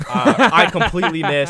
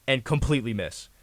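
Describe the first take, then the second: First: Laughing it out, much louder; laughing loudly while retelling the missed punch. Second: Said in the usual way. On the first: Real, not acted. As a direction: burst into laughter at his own miss.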